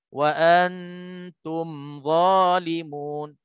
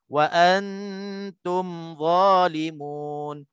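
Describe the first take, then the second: No difference in how they are said.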